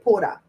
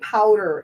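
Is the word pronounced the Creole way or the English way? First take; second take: Creole; English. First: It is said quickly with Creole vowels. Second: It is said with the full English vowels. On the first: "We say poda. We say it kind of fast" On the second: "we don't say powder in our language"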